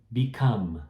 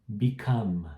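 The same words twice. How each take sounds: First: It ends on the m sound. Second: It ends on the m sound.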